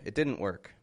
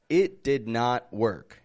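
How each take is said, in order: First: 'Did not' is joined into one contracted word. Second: Each word is said separately, with full 'did not'. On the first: The speaker calls it right. "It's really best to make a contraction" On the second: The speaker calls it wrong. "people really hear this as if you're trying to uh, emphasize those words"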